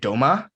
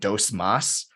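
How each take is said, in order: First: The S sounds at the word ends are dropped. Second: The S sounds at the word ends are pronounced. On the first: "they would say doma" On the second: "instead of saying dos mas"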